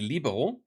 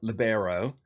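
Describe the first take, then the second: First: The word is pronounced with a German accent. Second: The word is pronounced without a German accent. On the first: "I'm pronouncing it very German" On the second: "not libero"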